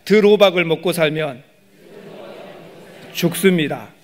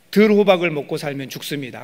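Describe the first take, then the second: First: Louder "들호박을 먹고 살면", pause, then "죽습니다"; lead for repetition. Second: Said in the usual way. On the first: Shown as a demonstration. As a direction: call out "들호박을 먹고 살면" loudly, wait, then "죽습니다". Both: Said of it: "한번 따라합시다".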